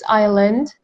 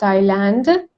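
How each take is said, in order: First: The word is said with a silent s. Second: The word is said with an audible s. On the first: The speaker calls it right. "It's island" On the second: The speaker calls it wrong. "not island"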